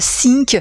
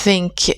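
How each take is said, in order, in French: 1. Il commence par un son de type s. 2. Il commence par un son de type f. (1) "les francophones auront tendance ici à faire plutôt un S" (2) "faites plutôt un F"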